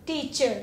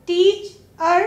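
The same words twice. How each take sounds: First: Said in the usual way. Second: टीच और as "teach", pause, "er"; two separate parts. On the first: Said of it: "मिलकर ही बनेगा". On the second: Shown as a demonstration. Teacher showing ER is a suffix, टीच और said apart. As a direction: detach the ending of टीच और as its own syllable. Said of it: "अलग सा कोई word नहीं है".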